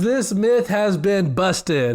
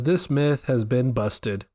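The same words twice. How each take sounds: First: It is said at a louder volume. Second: It is said at a normal, quieter volume.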